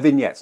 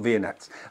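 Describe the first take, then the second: First: It is said with the standard pronunciation. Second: It is said sounding like the ice-cream name. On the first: The speaker calls it right. "they're vignettes" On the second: The speaker calls it wrong. "not vignettes"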